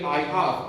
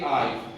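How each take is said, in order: First: The two words are said separately and in full. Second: The two words are joined into one short syllable. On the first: This form is longer than people usually use. The speaker calls it wrong. "They don't say I have. ... that is very long" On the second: This is the common everyday form. The speaker calls it right. "Most people say I've"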